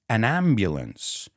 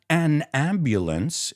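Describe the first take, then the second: First: The two words run together without pause. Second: There is a pause between the two words. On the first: The speaker calls it right. "I put them together. There's no pause" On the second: The speaker calls it wrong. "It's not an ambulance"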